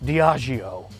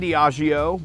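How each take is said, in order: First: The name is said in a sultry, seductive voice. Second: The name is said in a plain, ordinary voice.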